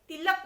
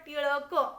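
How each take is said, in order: First: The name has a plain l sound. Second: The name has a retroflex l sound. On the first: This is how Hindi speakers say it. "Hindi में तिलक बोलते" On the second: This is how Marathi speakers say it. "Marathi मध्ये काय म्हणतात? टिळक"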